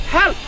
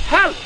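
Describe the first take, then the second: The two takes are said the same way.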